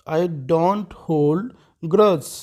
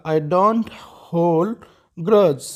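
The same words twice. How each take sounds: First: Slow, word by word for learners; deliberate classroom model reading; slow teaching repeat. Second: Said in the usual way. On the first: Shown as a demonstration. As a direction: spell it out slowly for a student. Teacher repeats sentence slowly.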